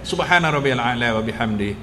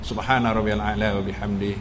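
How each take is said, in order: The two takes are said the same way.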